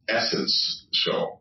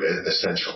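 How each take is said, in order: First: The word is split, with essence said fully. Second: The word is said in the usual way.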